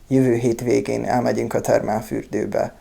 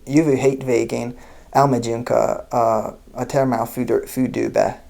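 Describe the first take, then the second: First: It is spoken with a Hungarian accent. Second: It is spoken with an American English accent. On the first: "my best imitation of a Hungarian accent" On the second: "Very American accented Hungarian sentence"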